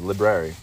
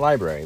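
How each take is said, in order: First: Every sound in the word is sounded out. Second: Some sounds in the word are dropped. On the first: The speaker calls it right. "That's how it's spelled phonetically" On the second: The speaker calls it wrong. "Not library"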